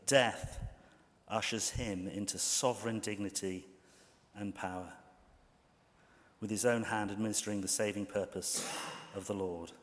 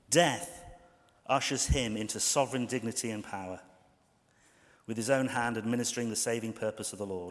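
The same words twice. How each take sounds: First: It is read slowly. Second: It is read at normal speed.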